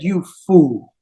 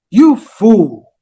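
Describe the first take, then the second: First: Put-on low, contemptuous put-down from the old nurse; scornful nurse. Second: The insult thrown back, louder, in disbelief; shocked echo. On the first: Old nurse Manthara scorns the queen, low and contemptuous. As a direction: spit it out with contempt. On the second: Acted. Queen Kaikeyi echoes the nurse's insult, louder and stunned. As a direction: repeat it as if you can't believe your ears.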